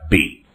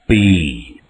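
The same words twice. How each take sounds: First: The vowel is said short. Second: The vowel is said long. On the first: "It can be short" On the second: "It can be long"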